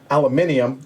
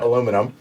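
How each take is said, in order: First: It is said the British way, five syllables. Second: It is said the American way, four syllables.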